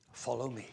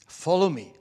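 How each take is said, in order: First: Soft, low call to follow; Jesus. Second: Firmer repeated summons at speaking volume; Jesus. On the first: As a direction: say it gently low, as a quiet summons. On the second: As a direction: call plainly and firmly to follow. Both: Acted. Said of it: "So Jesus says to us".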